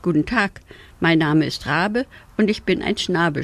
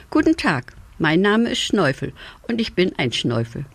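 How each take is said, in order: First: Mildly flustered raven greeting; a touch of surprise in a muddled introduction; surprised stammer. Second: Cheerful self-introduction. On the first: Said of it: "stotterte der Rabe überrascht". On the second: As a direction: greet a stranger with a lifted voice. Introduces himself to the raven. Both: A narrator's reading.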